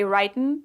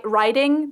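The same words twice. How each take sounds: First: "reiten" with the g dropped, ending in n. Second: Said in the usual way. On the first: Shown as a demonstration. Showing how Southerners drop the g, "reiten". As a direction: say "reiten" cutting off the ing. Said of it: "they say reiten". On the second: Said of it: "When you say, instead of".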